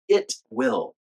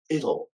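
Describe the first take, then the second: First: Both words are said fully and separately. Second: The words are shortened into a reduced form. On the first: "I'll say the full version first" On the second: "and then the contraction"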